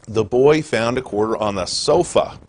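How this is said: The word sofa is stressed.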